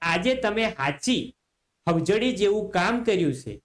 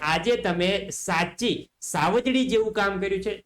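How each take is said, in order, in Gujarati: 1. શબ્દો h અવાજથી શરૂ થાય છે. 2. શબ્દો s અવાજથી શરૂ થાય છે.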